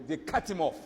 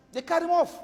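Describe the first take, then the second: First: Said in the usual way. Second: They cut him off shouted high and loud, OFF hit hard; emphatic repeat. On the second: Shown as a demonstration. Preacher repeating to the congregation, loud emphatic.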